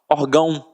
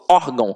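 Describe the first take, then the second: First: The stress is on the last syllable. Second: The stress is on the first syllable. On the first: The speaker calls it wrong. "Porque se o tio fosse um acento, a gente não falaria órgão. Nós falaríamos orgão" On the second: The speaker calls it right. "Eu falo órgão"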